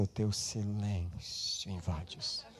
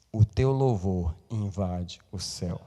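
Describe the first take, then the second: First: Softer, slow wrong version; mock quiet version. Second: Slow, set-apart sung-style quote; sung, intone it like the hymn line; sung, quoting song. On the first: Preacher contrasting silence with praise, hushed. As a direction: say it hushed, mocking the idea. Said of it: "Não diz assim". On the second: Sung, preacher quoting a singer's song slowly. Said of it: "a música da Cassiane diz assim". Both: Shown as a demonstration.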